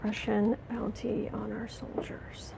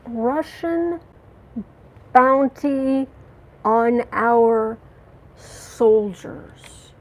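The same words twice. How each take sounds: First: Slow, stunned whisper, much softer; a hushed, appalled whisper; disbelieving whisper. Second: Outraged. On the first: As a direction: breathe it out in shocked disbelief. Repeats the news in disbelief. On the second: Outraged question about bounty. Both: Real, not acted.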